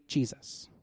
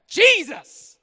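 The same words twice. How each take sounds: First: Very soft, almost breathed "Jesus"; "Jesus" murmured low and unvoiced, no energy; flat quiet. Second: High, loud cry of "Jesus."; joyful shout. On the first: Preacher leading the crowd, soft flat Jesus. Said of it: "Can you say". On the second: Preacher leading the crowd, shouting Jesus with joy. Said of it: "how about this?". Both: Shown as a demonstration.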